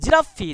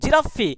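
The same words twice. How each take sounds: Both takes have the same delivery.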